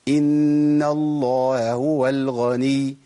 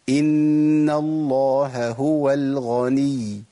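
First: One h sound at the word junction is lost. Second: Both h sounds at the word junction are clearly pronounced. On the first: The speaker calls it wrong. "والخطأ" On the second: The speaker calls it right. "ده الصح"

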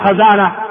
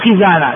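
First: The first vowel is an open 'a'. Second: The first vowel is a high 'i'. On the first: The speaker calls it wrong. "لا تقول خزانة" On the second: The speaker calls it right. "وإنما الصواب خزانة ... إنما تقول كسرة"

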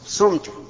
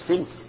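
First: The first vowel is u. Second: The first vowel is i. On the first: The speaker did the fasting. "ابن الفاعل صمت كقال قلت" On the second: The action is done to the person addressed. "ابن المفعول إيه يجب تقول صمت"

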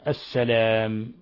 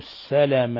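First: The vowel after the l is long. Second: The vowel after the l is short. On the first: "بإثبات الألف بعد اللام" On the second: "بحذف الألف بعد اللام"

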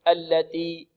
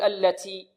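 First: The t is released with no breath. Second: The t has heavy breath with an s-like hiss. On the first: "يأتي بالتاء بدون همس" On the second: "يبالغون في الهمس"

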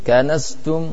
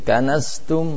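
The two takes are said the same way.

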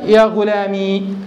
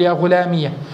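First: The word ends in a long ee sound. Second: The word ends in an iyah sound. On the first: "هذه اللغة الثانية التي هي بإسكان الياء" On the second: "فتح الياء تقول يا غلامية"

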